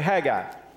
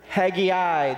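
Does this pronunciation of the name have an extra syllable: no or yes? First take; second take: No; Yes. First: The name is said without an extra syllable. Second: The name is said with an extra syllable. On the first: It is the common pronunciation. "our Bible drill people say Haggai" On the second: It reflects a regional habit of adding syllables. "the extra syllable that is added"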